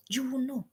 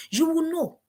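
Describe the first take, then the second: First: Hushed, unvoiced repeat; unvoiced whispered you will know. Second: Said in the usual way. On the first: Shown as a demonstration. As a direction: whisper it as a secret. Repeat whispered after 159.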